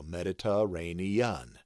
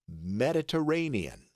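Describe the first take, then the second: First: Mediterranean sounded out as med-ih-tuh-ray-nee-un; syllable by syllable. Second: Said in the usual way. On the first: Shown as a demonstration. Teacher building the word from its key, Mediterranean in syllables. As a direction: spell out each sound of Mediterranean, ending in UN. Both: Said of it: "And then un, U H N".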